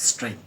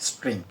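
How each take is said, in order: No difference in how they are said.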